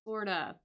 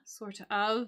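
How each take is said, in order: First: The two words are run together quickly. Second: The two words are said fully and separately. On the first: "we would say sorta" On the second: "We tend not to say sort of"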